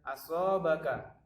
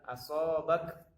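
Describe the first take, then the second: First: The word ends with a short a vowel. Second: The word ends on a silent k. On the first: "ka ini berharokat fathah" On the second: "maka dia disukunkan"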